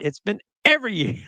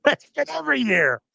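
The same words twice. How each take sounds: First: Said in the usual way. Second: Laughing high through It's been every year. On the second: Real, not acted.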